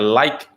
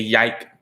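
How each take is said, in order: First: The word begins with an L sound. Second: The word begins with a Y sound. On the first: The speaker calls it right. "if they do like a like" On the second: The speaker calls it wrong. "They turn it into ya sound"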